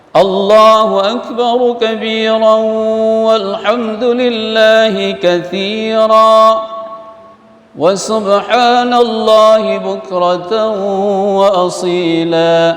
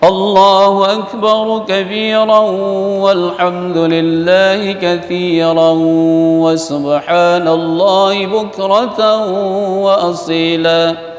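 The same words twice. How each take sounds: First: It pauses after katsiran before continuing. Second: It is read straight through without pausing. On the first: "waqaf di katsira" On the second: "kalau kita baca langsung boleh"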